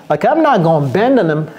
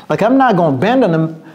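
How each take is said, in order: The two takes are said the same way.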